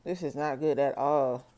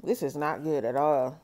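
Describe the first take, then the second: No difference in how they are said.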